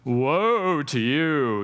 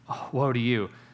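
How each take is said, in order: First: It is said in a harsh, condemning voice. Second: It is said in a sad, grieving voice.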